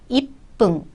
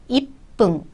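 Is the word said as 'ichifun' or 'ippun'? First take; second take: ippun; ippun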